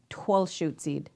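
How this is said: The name is said in the Puyallup regional form. "our Poyala Pobs relatives, they call it Twelshootzid"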